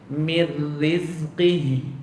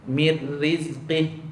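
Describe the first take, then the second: First: The final h sound is drawn out. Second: The final sound is cut off abruptly. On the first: The speaker calls it right. "Yang betul mir rizqih ... dia ada bunyi memanjang pada ha tu" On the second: The speaker calls it wrong. "tu berhenti mengejut tu"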